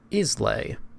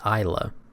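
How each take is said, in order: First: The name is said the standard way. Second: The name is said the local way. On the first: "This word here is pronounced Islay" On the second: "but the locals call it Islay"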